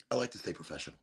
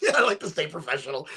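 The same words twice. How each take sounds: First: Low, soft deadpan repeat; deadpan the line as a joke; mock serious. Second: Said through a laugh, joking. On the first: Repeating the line to viewers, mock serious deadpan. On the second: Real, not acted. Joking to viewers while smoking, laughing. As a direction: chuckle through it.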